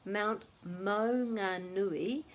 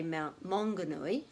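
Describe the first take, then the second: First: Slow Maunganui, each vowel clear, mao-nga-nui; careful Maunganui. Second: Maunganui as people usually say it, mahng-ga-nui; the everyday anglicised Maunganui; common Maunganui. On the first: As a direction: say Maunganui slowly and fully. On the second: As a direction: Maunganui with hard g. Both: Shown as a demonstration. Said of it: "which people usually say".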